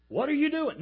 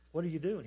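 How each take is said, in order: First: Loud, much higher-pitched holler. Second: Said in the usual way. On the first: Acted. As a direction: holler it louder at a silent tombstone. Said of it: "They would sit there hollering". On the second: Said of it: "No, no, no, louder".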